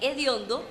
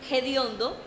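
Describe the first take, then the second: First: The word starts directly with a vowel. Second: The word starts with a breathy h sound.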